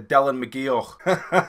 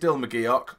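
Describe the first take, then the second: First: The name is said in a put-on Scottish accent. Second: The name is said in the speaker's usual accent. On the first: "That's my attempt at a Scottish accent" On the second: "it is Dylan McGeoch"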